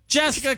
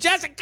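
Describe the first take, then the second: First: It is said calmly, without much excitement. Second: It is shouted with lots of excitement.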